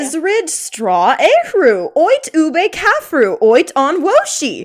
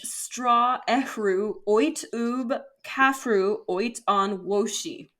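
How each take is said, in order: First: It is read like a Sims character. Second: It is read in her plain voice.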